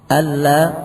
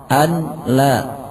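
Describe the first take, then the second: First: The n merges fully into the l sound. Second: The n is pronounced separately before the l. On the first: The speaker calls it right. "yang dibaca dengan idgham bila gunnah" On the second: The speaker calls it wrong. "tidak mengidghamkan nun pada lam"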